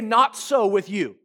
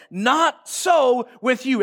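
First: Said in the usual way. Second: Preached slowly and strongly; emphatic declaration. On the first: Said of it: "Everybody say". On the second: Shown as a demonstration. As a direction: proclaim it so it sticks. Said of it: "preacher proclaims key line".

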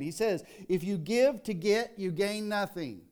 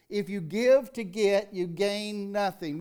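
First: Said in the usual way. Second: "If you give to get" slower and louder; emphatic repeat. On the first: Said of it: "preacher restates line". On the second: Shown as a demonstration. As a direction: drive the warning home. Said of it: "repeated with emphasis".

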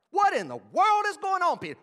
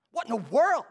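First: Much higher, loud "What in the world is going on"; full indignant shout; outraged. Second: Loud rising "What in the world?"; mock outrage; indignant. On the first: Acted. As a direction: build the accusation to a peak. Repeated accusing question, escalated. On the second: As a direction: demand it in disbelief. Repeated accusing question.

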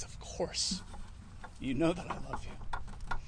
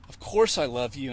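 First: Hushed, hurt and offended; a touch of wounded offence in a soft voice. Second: Said in the usual way. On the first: Retold or imitated. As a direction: answer quietly, stung by the question. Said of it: "Peter's getting offended".

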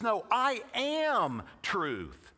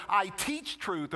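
First: "am" slowed and leaned on, said slowly; stress on am. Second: Said in the usual way. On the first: Shown as a demonstration. Preacher correcting the congregation, stressing am. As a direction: draw out "am" as the point. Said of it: "He says". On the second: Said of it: "Notice he doesn't say".

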